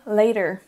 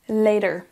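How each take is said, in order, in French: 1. La consonne du milieu ressemble à un D. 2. La consonne du milieu ressemble à un D.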